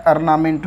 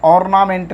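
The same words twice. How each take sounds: First: ऑर्नामेंट with an open aa start, the right way; right ornament, aar-sound. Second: ऑर्नामेंट said with a rounded o, the wrong way; wrong ornament, or-sound. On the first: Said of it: "यहाँ ऑर्नामेंट होता है". (ऑर्नामेंट सही, आ के साथ) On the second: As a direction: say ऑर्नामेंट with an open o to show the mistake. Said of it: "ऑर्नामेंट नहीं होता है". (ऑर्नामेंट गलत, ओ के साथ) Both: Shown as a demonstration.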